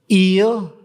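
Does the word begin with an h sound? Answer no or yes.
no. The word starts without an h sound.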